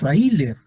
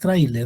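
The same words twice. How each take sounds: First: The a and i fall in separate syllables. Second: The a and i glide into one syllable. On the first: The speaker calls it wrong. "no decimos tráiler" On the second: The speaker calls it right. "es tráiler, eso es diptongo"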